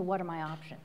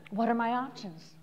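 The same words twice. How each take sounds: First: Said in the usual way. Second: Soft, open what are my options; calm and curious; looking at the horizon. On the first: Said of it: "What should I do and what are my options?". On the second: Shown as a demonstration. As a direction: ask it quietly, looking outward. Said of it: "Look at the horizon".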